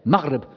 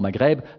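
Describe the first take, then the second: First: The word is said with an Arabic-style pronunciation. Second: The word is said with a French-style pronunciation. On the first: The speaker calls it right. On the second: The speaker calls it wrong.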